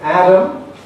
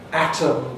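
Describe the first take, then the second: First: The middle consonant is a voiced D. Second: The middle consonant is a voiceless T. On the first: "they tend to get a voiced sound" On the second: "instead of a voiceless alveolar plosive"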